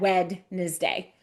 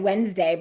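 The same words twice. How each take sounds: First: The D is pronounced, said in three syllables. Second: The D is silent, said in two syllables. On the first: This helps to remember the spelling. "I kind of think in my head Wednesday to remember that D" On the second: This is the everyday way of saying it. "I always say Wednesday"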